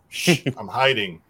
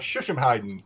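First: It is said slowly as separate words. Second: It is run together quickly as one word. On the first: It reveals a joke about hiding. "slow it down and pronounce it slowly" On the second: It sounds like a real fighting discipline. "Sounds kind of legit when said quickly"

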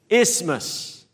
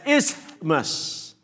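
First: No 'th' sound is heard in the middle. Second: A 'th' sound is squeezed into the middle. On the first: The speaker calls it right. "without the TH. It's silent" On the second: The speaker calls it wrong. "trying desperately to fit the TH inside"

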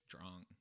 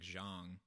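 First: The name starts with a dr-like sound. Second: The name starts with a plain z sound. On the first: The speaker calls it right. "but it was actually like" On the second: The speaker calls it wrong. "someone whose last name I thought was like"

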